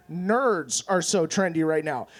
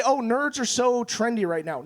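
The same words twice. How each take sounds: First: "nerds" drawn out low and slow; slow, lower correction, leaning on "nerds"; correcting emphasis on nerds. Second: Light, quicker quote of a popular opinion; people's trend remark. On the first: Acted. Comic correcting people about trendy nerds, slow emphasis on "nerds". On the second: Retold or imitated. People talking about nerds being trendy, casual quote. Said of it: "and people say".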